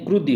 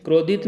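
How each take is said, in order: First: "क्रुद्धि" with short u, krud-dhi; correct form. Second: "क्रोधित" with long o, kro-dhit; raised "क्रोधित" as the form to reject; wrong form. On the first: ("क्रुद्धि" में छोटा 'उ', सही रूप) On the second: ("क्रोधित" में 'ओ' वाला गलत रूप) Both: Shown as a demonstration. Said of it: "क्रोधित नहीं".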